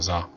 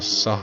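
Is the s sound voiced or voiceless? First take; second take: voiced; voiceless. First: The s is voiced, like za. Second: The s is a voiceless hiss, like ssa. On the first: The speaker calls it right. "자예요" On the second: The speaker calls it wrong. "싸가 아니고"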